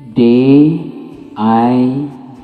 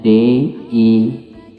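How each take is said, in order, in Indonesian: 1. Huruf-huruf itu dibaca dengan nama huruf bahasa Inggris. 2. Huruf-huruf itu dibaca dengan nama huruf bahasa Indonesia. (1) "kalau dibaca dalam bahasa Inggris" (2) "Bacaan dalam bahasa Indonesianya"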